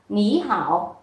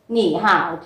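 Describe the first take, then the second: First: The first syllable has a rising tone. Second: The first syllable has a low dipping tone. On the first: "biến thanh ba đi đằng trước thành thanh hai" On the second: "hai thanh ba đi liền nhau"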